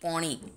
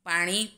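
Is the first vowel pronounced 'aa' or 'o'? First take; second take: o; aa. First: The first vowel is a rounded 'o' sound. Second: The first vowel is an open 'aa' sound.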